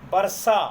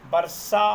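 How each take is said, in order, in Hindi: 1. बीच का व्यंजन मूर्धन्य sh ध्वनि है। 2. बीच का व्यंजन मूर्धन्य sh ध्वनि है।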